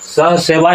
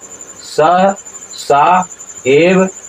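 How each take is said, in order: First: The syllables run together as 'seva'. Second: The syllables are kept apart as 'sa eva'. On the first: The speaker calls it wrong. "यहाँ उच्चारण नहीं होगा" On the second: The speaker calls it right. "इस तरह से उच्चारण होगा"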